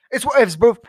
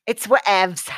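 First: Loud laid-back bro delivery; dude voice. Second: Said in the usual way. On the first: Shown as a demonstration. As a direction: toss it off like a chill bro.

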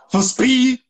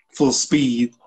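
First: High, incredulous echo; mock challenge. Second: Said in the usual way. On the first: Teacher mocking demand for full speed, high challenge. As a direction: toss it up high as a dare.

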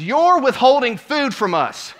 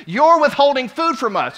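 First: High, loud, slow accusing shout; indignant yelling. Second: High and loud accusing shout; indignant yelling. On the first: Entitled lady yells at worker, loud and slow. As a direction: berate him over the desserts. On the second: Lady with a full plate accuses worker, loud and high. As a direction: hurl the accusation at him. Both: Retold or imitated.

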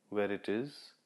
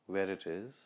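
No difference in how they are said.

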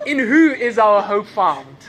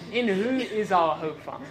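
First: Loud, slow preaching question with leftover laughter; big deliberate question to the congregation; loud restart. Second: Said in the usual way. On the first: Real, not acted. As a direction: project it slowly, shaking off the giggles. Resuming sermon after fit of laughter.

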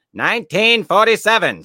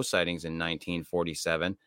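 First: "Nineteen forty-seven" belted much higher and louder; emphatic exclaim. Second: Said in the usual way. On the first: Real, not acted. Repeats the year emphatically.

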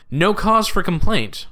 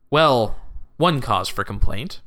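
First: Said in the usual way. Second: Slow correction leaning on "one"; stress on ONE. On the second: A narrator's reading. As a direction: concede it slowly, pointing up the word "one".

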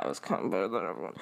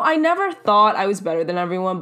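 First: Low, quick, under the breath; hurried, much quieter admission in a low pitch; muttered aside. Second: Said in the usual way. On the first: Real, not acted. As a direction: drop it down and rush through like a sneaky confession. Under-the-breath confession undercutting the claim.

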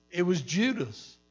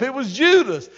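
First: Said in the usual way. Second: Higher and louder, hammering the name Judas; emphatic preaching. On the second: Real, not acted. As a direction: land "It was Judas" as a loud punchline.

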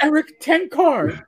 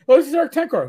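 First: "Eric Tenkar" high, slow and drawn out; "Eric Tenkar" pitched up, each word leaned on; insistent repeat. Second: High-pitched imitation of a proud wife; mock-proud, pitched-up introduction; retold introduction. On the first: Retold or imitated. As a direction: spell out "Tenkar" slowly for someone clueless. Retold repeat after stranger's "Who?. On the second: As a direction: introduce him as if everyone should know. Retold wife introduces husband to stranger.

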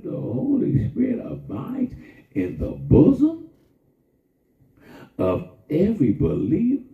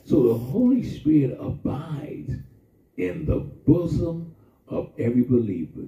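First: Sung line. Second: Said in the usual way. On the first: Shown as a demonstration. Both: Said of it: "Did you hear what I just said?".

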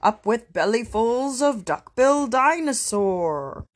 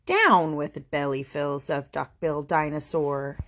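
First: High, rousing hunting chant; chanted, rowdy rallying shout. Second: Mild hooted chant, unshouted; low-key counter-chant. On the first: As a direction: chant it out like a war cry. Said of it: "And they shouted". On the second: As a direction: hoot it steadily in an understated voice. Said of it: "And he hooted". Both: Acted.

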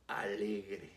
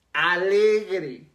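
First: Alegre. dropped much lower and soft, trailing away; soft first take. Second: Alegre. said louder and at full pitch, with a firm falling end; emphatic repeat. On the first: Preacher quietly introducing the word joyful, soft and low. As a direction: let alegre. fall away almost to a murmur. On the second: Preacher repeating joyful to the congregation, louder and emphatic. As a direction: hit Alegre. hard the second time. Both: Shown as a demonstration.

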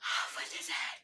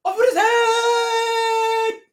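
First: Whispered royal order; hushed mock command. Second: Very high, loud, stretched-out scream; hammed-up queen's shriek. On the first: Quotes the queen before loud take. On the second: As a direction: screech it out as an imperious queen. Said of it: "She's like".

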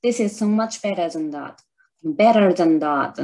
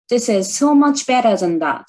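First: Repeat attempt. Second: Movie-style English, a bit higher and louder, slow; movie line imitation. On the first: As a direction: say it again more gently. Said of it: "言えてる？". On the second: Vlogger performs the shadowing practice line, spirited and slow. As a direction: deliver it like the heroine, fired up. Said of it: "ちょっとやってみようかな". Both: Shown as a demonstration.

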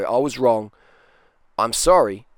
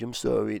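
First: Louder, owning it openly; public apology. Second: A mumbled, half-hearted sorry; grudging private sorry. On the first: Shown as a demonstration. A real man apologising publicly, loud and firm. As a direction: own it out loud for the crowd. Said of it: "But publicly, a real man can go". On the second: Retold or imitated. A man texting a grudging apology, muttered half-heartedly. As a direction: toss off a sorry nobody will see. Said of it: "a little pissy email or f-, text message".

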